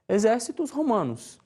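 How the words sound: It uses a Brazilian Portuguese pronunciation of Latin. "na pronúncia regional"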